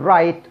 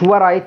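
First: It begins with an R sound, no W. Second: It begins with a W sound. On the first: The speaker calls it right. "تقول رايت" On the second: The speaker calls it wrong. "ما تقوليش ورايت"

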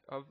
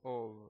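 First: The vowel is a short neutral sound. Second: The vowel is a full rounded o. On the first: The speaker calls it right. "of es la pronunciación estándar. ... Es una vocal neutra" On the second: The speaker calls it wrong. "Tampoco es of, no es una o"

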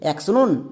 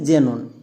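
First: The word begins with a ks sound. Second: The word begins with a z sound. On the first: The speaker calls it wrong. "এক্স নন নাকি জেনন?" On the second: The speaker calls it right. "শব্দের শুরুতে এক্স থাকলে তার জন্য বর্গীয় যোগ করব।"

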